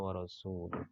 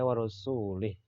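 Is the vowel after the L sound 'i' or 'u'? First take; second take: u; i. First: The vowel after the L is 'u'. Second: The vowel after the L is 'i'. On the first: God and His messenger both disown the idolaters. The speaker calls it right. "Itu yang eh, asli" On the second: God disowns the idolaters and the messenger. The speaker calls it wrong. "Lamnya dibaca eh, kasrah"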